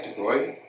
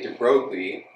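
First: It is said in a French accent. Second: It is said in an American accent.

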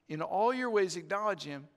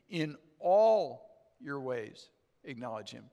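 First: The word all carries no special emphasis. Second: The word all carries strong emphasis.

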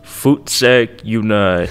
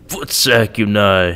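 First: It is said in a flat monotone. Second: It is said in an angry tone.

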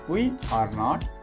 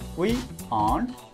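First: All three words are said fully and separately. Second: The last two words are joined into one. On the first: "Full form of the helping verb" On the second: "It's short for"

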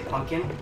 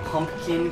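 First: The word is pronounced the Midwest way. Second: The word is pronounced the standard way. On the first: The speaker calls it wrong. "I'll say pumpkin. ... it is a Midwest thing" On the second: The speaker calls it right. "I don't say pumpkin correctly"

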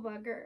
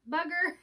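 First: The word is mumbled and not clearly articulated. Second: The word is clearly and carefully articulated. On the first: The speaker calls it wrong. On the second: The speaker calls it right.

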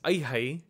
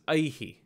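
First: The echo after the breath repeats the diphthong ai. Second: The echo after the breath is a short i. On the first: The speaker calls it wrong. "It's not pronounced as aihai" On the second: The speaker calls it right. "but it's pronounced as aihi"

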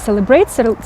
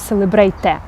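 First: The word ends cleanly on the t. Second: A final vowel is sounded after the t. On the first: The speaker calls it right. "А кажемо celebrate" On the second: The speaker calls it wrong. "ми не кажемо celebrate"

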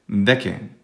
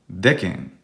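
Both takes have the same delivery.

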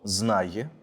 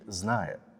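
First: The final vowel is pronounced with a y-glide. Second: The final vowel is a plain hard e. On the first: The speaker calls it right. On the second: The speaker calls it wrong.

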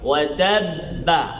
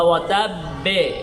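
First: The final b is followed by an 'a' vowel. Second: The final b is followed by an 'e' vowel. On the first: "এভাবে না। ওয়াতাব্বা" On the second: "কাসরা হয়ে গেল"

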